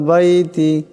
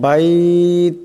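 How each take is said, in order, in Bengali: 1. শব্দটি একটি ছোট 'i' স্বরবর্ণ দিয়ে শেষ হয়। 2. শব্দটি 't' দিয়ে শেষ হয়, স্বরটি লম্বা করে পড়তে হয়।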